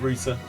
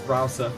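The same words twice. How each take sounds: First: The word is said the British way. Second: The word is said the American way. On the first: "in British English it's called router" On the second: "in American English it's pronounced router"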